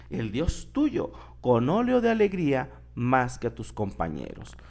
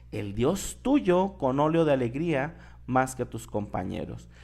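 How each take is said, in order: The two takes are said the same way.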